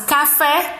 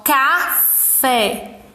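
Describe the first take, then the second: First: Said in the usual way. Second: CAFÉ in two slow beats, ca, then fé; split into syllables. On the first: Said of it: "Exemplo de palavras". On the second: Shown as a demonstration. Teacher counting two syllables, café split slowly in two. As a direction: say café with a clear pause between ca and fé. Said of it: "Duas sílabas".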